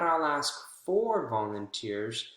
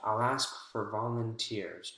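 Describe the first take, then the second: First: The word 'for' is stressed and emphasized. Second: The word 'for' is reduced and unstressed. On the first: The speaker calls it wrong. "Not I'll ask for volunteers" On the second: The speaker calls it right. "Notice how it's not stressed when we say it"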